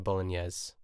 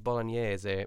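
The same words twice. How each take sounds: First: The word has an English pronunciation. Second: The word has an Italian pronunciation. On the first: This is the easier everyday form. "it is easier to say bolognese" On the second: This is the authentic Italian form. "the proper way to say it is bolognese"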